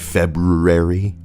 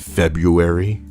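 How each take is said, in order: First: The first R sound is strongly pronounced. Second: The first R sound is weak or dropped. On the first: The speaker calls it right. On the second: The speaker calls it wrong.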